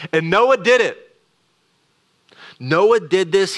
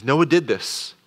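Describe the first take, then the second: First: "did" punched high and loud, with "Noah did this" hammered a second time; double emphasis. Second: Said in the usual way. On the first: Shown as a demonstration. Preacher stressing Noah's obedience to the congregation, emphatic. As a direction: preach the "did" with force, pitch up, louder. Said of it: "using this double emphasis". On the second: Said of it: "He says".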